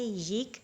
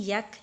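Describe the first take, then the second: First: "यिक" said with a short i; Farsi pronunciation with zer. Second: "यक" said with an a vowel; Afghani pronunciation. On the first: Teacher gives students the Farsi reading, "यिक" with an i. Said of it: "ज़ेर के साथ". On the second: Teacher shows students the reading to avoid, "यक" with an a. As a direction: say "यक" with a short a, the Afghani way. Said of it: "इसको आपने यक नहीं पढ़ना". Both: Shown as a demonstration.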